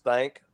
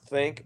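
First: Texan A in THANK, replacing the short I; Texas pronunciation. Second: Said in the usual way. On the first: Shown as a demonstration. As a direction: THANK for think, vowel opened to an A. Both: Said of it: "word think becomes thank".

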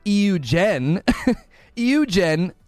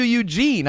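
First: "Eugen" said as ee-you-JEN; deliberate mispronunciation. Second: "Eugene" said as you-JEEN; correct pronunciation. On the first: Defending himself to a friend, mispronounced "Eugen". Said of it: "I'm not mispronouncing it". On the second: Telling a friend he says it correctly, proper "Eugene". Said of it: "I'm at least pronouncing it correctly". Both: Shown as a demonstration.

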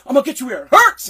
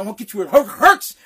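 First: Loud, quick, fluent mock threat; imitated threat without stutter. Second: Mock threat catching on "hurts"; imitated stutter. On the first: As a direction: run it out without a stumble, loud, imitating an angry boss. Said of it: "he didn't stutter that part". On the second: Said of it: "he stuttered, he had a lisp".

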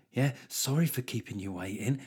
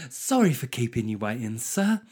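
First: The same apology said softer, sneering and insincere; snide mock apology. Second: Mock sugary service apology with a rising sir; fake polite apology. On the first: Canteen lady sneering at a waiting customer, snide and quiet. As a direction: let the fake politeness drop into contempt. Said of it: "They're like". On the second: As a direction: imitate the canteen lady's put-on politeness. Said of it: "that woman of your generation thing".

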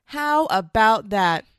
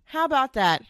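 First: Slow, loud, drawn out; slow emphatic. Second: Said in the usual way. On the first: Real, not acted. Mom telling husbands, slow and loud. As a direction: drag each word out for effect.

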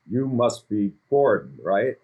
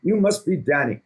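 First: Said in the usual way. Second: Put-on a rough try at a British accent, higher and louder; a self-admittedly bad British accent, playing Gordon; Gordon Ramsay impression. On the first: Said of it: "I can't do a Gordon accent". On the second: Greeting Danny on Zoom as Gordon, in an attempted British accent. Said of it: "I can't do a Gordon accent, but I always try".

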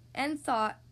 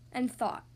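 The two takes are said the same way.

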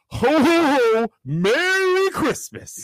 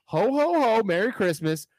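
First: High, slow jolly ho ho ho; Santa voice. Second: High jolly ho ho ho; a quick Santa call. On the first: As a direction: boom it out like Santa Claus. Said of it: "You better sound like frickin' Santa Claus". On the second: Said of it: "As Santa". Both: Shown as a demonstration.

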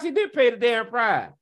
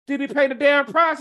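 First: "did" punched, "price" falling flat and final; answering his own question, falling and certain; firm statement. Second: Mock-asking the Christians, rising challenge; questioning rise. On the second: Rhetorical question, then answers himself. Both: Real, not acted.

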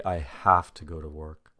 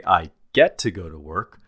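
First: "have to" said low and heavy like a chore; burdened have to. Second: "get to" lifted, glad and light; upbeat get to. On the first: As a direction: let "I have to go to work" sag under the weight. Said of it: "the emphasis is on the responsibility and obligation". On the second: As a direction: sound pleased to have the chance to work. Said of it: "the emphasis is on the opportunity". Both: Shown as a demonstration.

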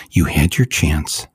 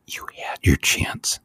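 First: Said in the usual way. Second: Whisper. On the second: Real, not acted. Condemning the police.

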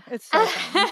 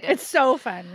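First: "It's so fun" jumped much higher in a put-on squeal; gushing "so fun" up high; giddy high-voiced "It's so fun"; squealy gush. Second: Said in the usual way. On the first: Shown as a demonstration.

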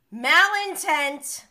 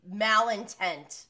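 First: Malintent said much louder and higher, slow; emphatic repeat. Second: Said in the usual way. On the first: Shown as a demonstration. Recapper repeats Malintent with loud, slow emphasis.

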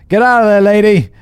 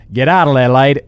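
First: Higher, louder barked order, no accent; wrong first take. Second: Louder, clipped Australian order; Australian accent. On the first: First try at Alex's line to the ghost, loud and high. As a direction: yell it at the ghost in your own voice. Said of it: "Wait, sorry". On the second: Redoing Alex's line to the ghost in an Australian accent. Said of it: "This is an Australian accent". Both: Shown as a demonstration.

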